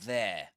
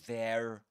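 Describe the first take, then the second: First: The final R sound is left silent. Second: The final R sound is clearly pronounced. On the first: The speaker calls it right. "you wouldn't pronounce a final letter R" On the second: The speaker calls it wrong. "you wouldn't say there, there, right? But that's in American English"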